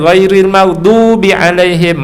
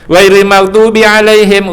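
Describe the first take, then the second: First: The vowel ending 'maghdubi' is held long. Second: The vowel ending 'maghdubi' is cut short. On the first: The speaker calls it right. "dia tak baca" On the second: The speaker calls it wrong.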